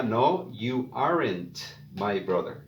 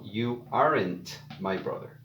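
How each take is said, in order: First: You aren't my brother spoken slowly, weight on aren't; carefully spelled out contraction; slow model. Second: Said in the usual way. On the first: Shown as a demonstration. Teacher showing the other contraction to learners, slowly. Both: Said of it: "la otra forma sería".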